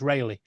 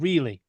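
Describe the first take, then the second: First: The first syllable sounds like 'ray'. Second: The first syllable sounds like 'ree'. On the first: The local version of the town's name. The speaker calls it right. "no, it's Rayleigh. ... I know what it's called" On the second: An outsider's version of the town's name. The speaker calls it wrong. "He goes, "No, it's called Reely.""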